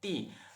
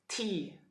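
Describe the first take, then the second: First: The T is said without a puff of air. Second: The T is said with a puff of air. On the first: "This is from Indonesia" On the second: "for the America, they they say tea"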